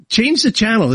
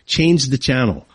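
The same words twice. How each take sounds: First: Higher, punched "Change the channel"; "Change the channel" hit hard as a command; emphatic command. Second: Said in the usual way. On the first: Real, not acted. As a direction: order them to switch with "Change the channel" pitched high. Repeated command to listeners.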